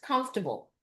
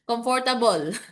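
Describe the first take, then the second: First: The word is said with syllables run together. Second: The word is said with every syllable pronounced. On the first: The speaker calls it right. "Two syllables. I prefer it two syllables" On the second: The speaker calls it wrong. "Kasi ganun yung mga Pilipino eh"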